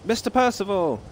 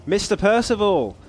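First: Put-on high call in an English accent; great shout, English accent. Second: Put-on high shouted name, dropping the English accent; non-English accent attempt. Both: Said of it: "Not in an English accent, though".

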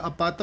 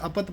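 First: ਅਪਤ in the taught recitation form; correct reading demo. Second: ਅਪਤ in the rejected variant form; mistaken reading demo. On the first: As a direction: sound out ਅਪਤ as it should be recited. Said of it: "ਅਪਤ ਪਾਠ ਆ ਰਿਹਾ". (ਅਪਤ ਦਾ ਸਿਖਾਇਆ ਉਚਾਰਨ) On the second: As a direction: show the variant of ਅਪਤ to be avoided. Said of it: "ਅਪਤ ਪਾਠ ਨਹੀਂ ਕਰਨਾ". (ਅਪਤ ਦਾ ਗਲਤ ਉਚਾਰਨ) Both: Shown as a demonstration.

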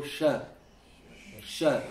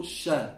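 First: "sha" with tongue sides toward teeth and palate; a demonstrated, more hidden sh in "sha"; correct Arabic sheen. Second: "sha" with the sh too far forward; wrong sheen. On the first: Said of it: "You have to do it with". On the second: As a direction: say "sha" as the incorrect example. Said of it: "So don't go sha". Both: Shown as a demonstration.

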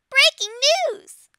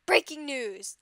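First: High, loud squeaky announcer shout; Peck voice. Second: A lightly voiced Sir Gilbert announcer; calm newsreader take, close to own voice. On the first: Acted. Fan reading news to viewers in a high, loud Peck voice. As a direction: belt it out as a cartoon news crier. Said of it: "I'll use my Peck voice". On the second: Fan reading news to viewers in a light Sir Gilbert voice. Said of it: "let me use my Sir Gilbert voice".

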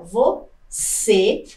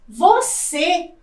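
First: Você split slowly, vo, pause, long CÊ; stress on final syllable. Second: Said in the usual way. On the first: Shown as a demonstration. Teacher shows the class an oxytone, você broken before a stressed CÊ. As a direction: separate você and lean on CÊ. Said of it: "Então, olha". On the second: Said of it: "também é uma palavra oxítona".

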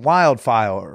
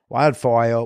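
First: Said in the usual way. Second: Put-on Wildfire said like a toddler, wildfoh with no clear r or l; toddler talk. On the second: Shown as a demonstration. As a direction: lisp Wildfire like a little kid. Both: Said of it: "I'm starting to talk like a toddler".

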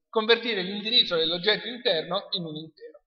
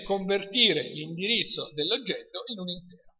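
First: Said in the usual way. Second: Measured restatement for the class to follow; slow repeat. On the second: Shown as a demonstration. Lecturer repeats a key definition to students, slowly. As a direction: repeat it a little more slowly. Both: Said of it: "lo ripeto lentamente".

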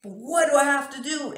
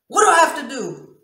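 First: Louder anguished yell. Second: Very loud, high desperate demand; anguished yell. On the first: Shown as a demonstration. Woman showing her real volume in pain, louder anguished yell. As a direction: stretch the plea into a yell. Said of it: "it's actually louder than that". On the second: Retold or imitated. Woman demonstrating how she talked through pain, anguished yell. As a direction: burst out pleading at full voice. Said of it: "And I talk like that".

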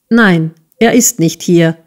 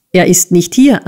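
First: Mildly hurt, firm denial; reply with a touch of wounded dignity; understated indignation; offended. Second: Said in the usual way. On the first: A narrator's reading. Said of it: "erwiderte Nicholas gekränkt".

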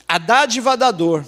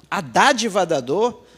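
First: Said in the usual way. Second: Slow, rising on "Dádiva" as if doubting it; puzzled question. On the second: Shown as a demonstration. Preacher echoing the odd book title to the congregation, slow puzzled rise. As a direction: repeat "A Dádiva da Dor?" slowly in disbelief, tune rising at the end. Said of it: "o que que é isso?".

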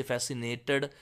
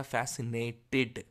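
First: फैसिनेटेड ending with a dull "ad" sound; wrong pronunciation. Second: फैसिनेटेड slowly, with a clear "id" ending; correct pronunciation. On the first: Teacher demonstrating the wrong फैसिनेटेड ending to students. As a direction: end फैसिनेटेड with a swallowed -ad. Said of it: "नहीं बोला जाएगा". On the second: Teacher demonstrating the right फैसिनेटेड to students, slowly. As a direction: end फैसिनेटेड on a crisp -tid. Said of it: "इड pronounce होगा". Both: Shown as a demonstration.

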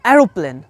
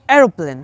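First: American-accented এরোপ্লেন. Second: British-accented এরোপ্লেন with a light r. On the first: Teacher shows learners American pronunciation of এরোপ্লেন, American accent. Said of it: "American accent বলি". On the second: Teacher shows learners British pronunciation of এরোপ্লেন, British accent. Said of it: "British accent বলতে চাই". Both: Shown as a demonstration.

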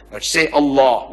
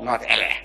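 First: Allah ending in a long open o; right Allah. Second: Allah with flat a sounds, ɛlæ; Allah said the English way; wrong Allah. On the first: Preacher correcting how Allah should sound. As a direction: say Allah properly, əlɔ. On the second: Preacher mocking the English way of saying Allah. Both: Shown as a demonstration. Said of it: "pronounce it the way I ask you".

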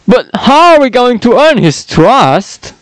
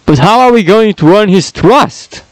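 First: High, goofy cartoon dog voice; accidental Goofy voice. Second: Tartarius voice without the Goofy; intended henchman voice. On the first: Henchman asks how to earn trust, sounding like Goofy. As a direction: slip into a Goofy impression. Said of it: "not meant to sound like Goofy there". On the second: Acted. Henchman asks the boss how to earn trust, in his own voice. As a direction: pull it back to the henchman's own voice. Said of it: "maybe that's more like it".

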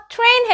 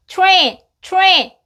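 First: "train" with a clear separate t before the r; TR as plain T. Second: "train" said like "chu-rain". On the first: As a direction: say "train" with a straight t, not a "chu" sound. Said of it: "train 해도 틀리진 않아요". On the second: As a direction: blend the t and r of "train" into a ch-like "chu" sound. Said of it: "to처럼 발음돼서". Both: Shown as a demonstration.

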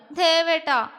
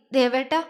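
First: Higher-pitched coy whine, falling at the end; whiny protest. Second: Understated choked-up call, rising at the end; faltering. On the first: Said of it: "അവള് ചിണുങ്ങി". (ചിണുങ്ങിക്കൊണ്ട്) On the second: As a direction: call out with a slight catch of tears. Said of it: "ഇടർച്ചയോടെ വിളിച്ചു". (ഇടറിയ സ്വരത്തിൽ) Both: A narrator's reading.

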